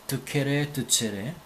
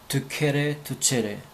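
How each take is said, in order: No difference in how they are said.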